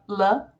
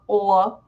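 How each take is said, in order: First: The L sound is clear and light. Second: The L sound is dark and hollow. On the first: "instead of L" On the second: "you get"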